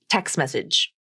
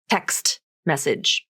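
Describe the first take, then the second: First: The final T of text is dropped. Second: The final T of text is clearly pronounced. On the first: It is ordinary fast conversational speech. "in fast conversational speech, the T sound will be dropped" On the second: The speaker wants to emphasize the word. "pronounce the word text with its full pronunciation"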